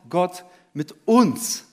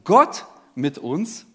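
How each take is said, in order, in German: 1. Die Betonung liegt auf dem Wort uns. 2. Die Betonung liegt auf dem Wort Gott. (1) "bei jedem Punkt liegt die Betonung auf einem anderen Wort" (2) "bei jedem Punkt liegt die Betonung auf einem anderen Wort"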